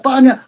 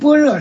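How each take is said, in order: First: It is said with three syllables, like 'baniya'. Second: It is said with two syllables, like 'bore'. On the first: This is how it was read in Sanskrit and old Chinese. "就这么读的巴尼亚" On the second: This is how it is read today. "我们般若是我们现在这么念的"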